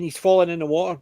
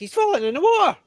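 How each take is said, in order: First: It is said at a normal speaking pitch. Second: It is said at a slightly higher pitch.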